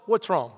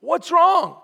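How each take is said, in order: First: Said in the usual way. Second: "What's wrong?" pushed higher and louder; raised, forceful "What's wrong?"; emphatic repeat. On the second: Acted. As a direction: ask "What's wrong?" insistently, much higher than the first time. Question asked twice, second pushed harder.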